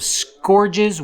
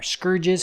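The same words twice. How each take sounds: First: "Scourges" with an OR vowel, as in score; Scourges said "SKOR-jiz". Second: "Scourges" with an UR vowel, as in urge; Scourges said "SKUR-jiz". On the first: Player listing units tries one pronunciation, "Scourges" as SKOR-jiz. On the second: Player offering the other pronunciation, "Scourges" as SKUR-jiz. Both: Shown as a demonstration. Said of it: "however you wanna say it".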